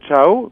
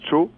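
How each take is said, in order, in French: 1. Le mot a un 'a' avant le 'o'. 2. Le mot n'a qu'un son 'o'. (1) "qui veut dire ciao" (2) "mais qu'il prononce tcho"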